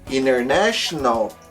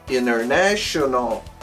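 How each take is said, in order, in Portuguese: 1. O T depois do N é omitido. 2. O T depois do N é omitido.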